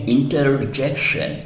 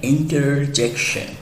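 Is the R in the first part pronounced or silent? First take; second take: pronounced; pronounced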